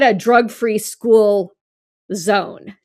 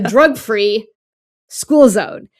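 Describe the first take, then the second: First: Drug free is grouped with school alone. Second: Drug free is grouped with school zone together. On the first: It is a zone for schools without drugs. The speaker calls it wrong. "It's not saying this is a drug free school" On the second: The zone around a school is drug free. The speaker calls it right. "It's saying this is a drug free zone because it includes a school"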